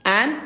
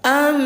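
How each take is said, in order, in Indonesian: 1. Suku kata ini diakhiri dengan bunyi n biasa. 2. Suku kata ini diakhiri dengan bunyi m yang ditahan, bersengau. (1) "kan bunyi awalnya an" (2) "bunyinya am disertai dengung dua harokat"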